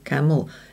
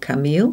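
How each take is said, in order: First: The second vowel is reduced to a weak schwa. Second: The second vowel is full and strongly stressed. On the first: The speaker calls it right. "but we go camel. It gets swallowed" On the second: The speaker calls it wrong. "or camille"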